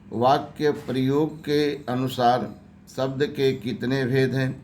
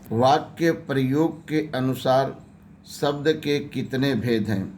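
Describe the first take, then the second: Both takes have the same delivery.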